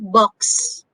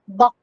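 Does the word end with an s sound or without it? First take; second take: with; without. First: The word ends with a clear s sound. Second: The final s sound is cut off. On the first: The speaker calls it right. "The X is S sound" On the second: The speaker calls it wrong. "it's not buck"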